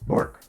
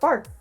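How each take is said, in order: First: The bark sounds gruff and rough. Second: The bark sounds cute and light.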